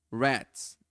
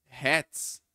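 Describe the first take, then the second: First: "rats" with a curled-back r, like the caipira r; retroflex English r. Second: "hats" with a Portuguese rato r, sounding like an h; wrong h sound. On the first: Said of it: "som do R retroflexo". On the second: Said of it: "vai soar como se fosse um H". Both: Shown as a demonstration.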